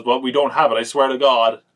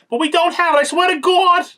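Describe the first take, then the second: First: Mildly hammed-up pleading, a bit louder; over-the-top plea. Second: Put-on loud, very high New York accent screech; over-the-top New York accent. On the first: Wife pleading with the villain, mildly over the top. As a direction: lightly mimic a melodramatic protest. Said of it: "she's over the top as well". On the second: Wife swearing to the villain, shrieked New York accent. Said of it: "that kind of New York accent".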